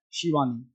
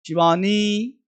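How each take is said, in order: First: शिवानी with a short, quick i; short i in Shivani. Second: शिवानी said clearly with a short i; short i in Shivani. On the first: (शिवानी में छोटी इ) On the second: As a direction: model शिवानी, vi kept short. (शिवानी साफ़ छोटी इ के साथ) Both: Shown as a demonstration. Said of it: "तो sound क्या है?".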